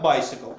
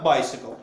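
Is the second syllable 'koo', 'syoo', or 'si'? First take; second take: si; si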